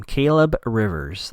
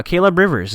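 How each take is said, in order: First: "Caleb Rivers" spaced out slowly; slow, pointed repeat. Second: Said in the usual way. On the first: Shown as a demonstration. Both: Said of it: "Let's keep that in mind".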